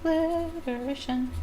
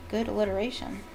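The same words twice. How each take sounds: First: Higher, slow, drawn-out echo of the word "Alliteration"; savouring repeat. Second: Said in the usual way. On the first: Shown as a demonstration. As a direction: relish "Alliteration" slowly, up high.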